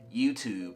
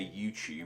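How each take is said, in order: First: The t sounds like a plain t. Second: The t sounds closer to a ch sound. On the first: This is how an American would say it. "where an American would more likely say YouTube" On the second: This is how people in England say it. "I say YouTube"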